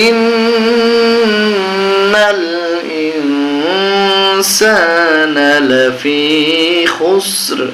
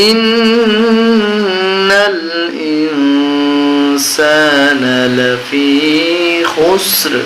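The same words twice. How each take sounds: Both takes have the same delivery.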